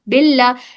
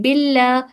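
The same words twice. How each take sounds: First: The L is pronounced light and thin. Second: The same.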